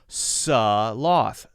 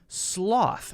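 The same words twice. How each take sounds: First: A short vowel separates the S and the L. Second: The S runs straight into the L. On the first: The speaker calls it wrong. "It's not sloth. That's a common mistake, to make that an s, S-U-H sort of sound" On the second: The speaker calls it right. "you have to jump very quickly from the S to the L sound"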